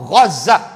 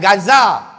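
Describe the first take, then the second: First: It begins with a throaty gh sound. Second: It begins with a plain hard g sound. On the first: The speaker calls it right. "Tu yang betulnya Gaza. Ghin, Zaid, Ta marbutah" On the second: The speaker calls it wrong. "Bukan Gaza"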